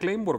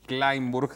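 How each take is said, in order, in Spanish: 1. El apellido se pronuncia a la manera española. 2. El apellido se pronuncia a la manera alemana. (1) "él lo pronuncia Kleinburg" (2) "diría yo"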